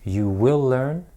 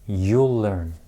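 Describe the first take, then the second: First: Both words are said fully: you will. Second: The words run together into one syllable, you'll. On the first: "You will can be shortened to you'll" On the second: "You will can be shortened to you'll"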